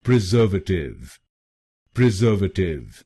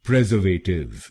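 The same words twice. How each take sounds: First: "preservative" as pri-ZER-vuh-tiv; stress on second syllable. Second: "preservative" as PREZ-er-vay-tiv; stress on first syllable. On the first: Teacher shows where the stress belongs, second syllable stressed. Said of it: "दूसरे शब्दांश पर यानी SER पर जोर डालना है". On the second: Teacher shows the common wrong stress, first syllable stressed. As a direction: hit the opening PREZ in "preservative". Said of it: "हम पहले शब्दांश पर यानी पीआरई". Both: Shown as a demonstration.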